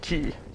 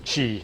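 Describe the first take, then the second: First: The word begins with a k sound. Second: The word begins with a ch sound. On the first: The speaker calls it wrong. "not key" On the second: The speaker calls it right. "correct pronunciation"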